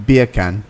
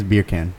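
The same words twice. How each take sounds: First: Loud British beer can, R dropped; punchy attempt at an English accent. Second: Said in the usual way. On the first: Shown as a demonstration. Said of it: "trying to say beer can with an English accent". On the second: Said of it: "okay, here's beer can".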